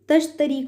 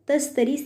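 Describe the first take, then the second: First: The middle consonant is 'sh'. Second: The middle consonant is 's'. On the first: The speaker calls it right. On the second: The speaker calls it wrong.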